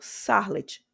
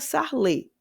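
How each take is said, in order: First: The surname is said without French pronunciation. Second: The surname is said with French pronunciation. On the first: Other people say it this way. "eu já escutei pessoas falando" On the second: This is how it would be read in French. "em francês seria"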